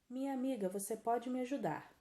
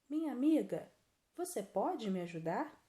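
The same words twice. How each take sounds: First: It is said straight through without a pause. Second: There is a pause after 'Minha amiga'. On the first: The speaker calls it wrong. "É como está na frase, não é?" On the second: The speaker calls it right. "Não ficou melhor? Então, essa pausa é a vírgula"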